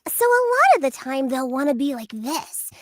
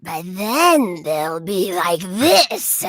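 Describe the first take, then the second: First: Lightly sweet toy witch; a touch of sugary witch. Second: Very slow, creepy witch; scary witch voice. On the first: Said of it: "let's hear it". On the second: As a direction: drag it out like a wicked witch. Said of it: "scary, gravelly voice texture". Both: Shown as a demonstration.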